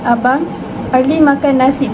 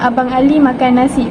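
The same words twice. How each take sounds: First: It is said with a pause after the first word. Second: It is said without a pause after the first word. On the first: Someone tells the brother that Ali is eating rice. "bermakna Ali yang makan nasi" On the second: The older brother named Ali is the one eating rice. "bermakna Abang Ali yang makan nasi"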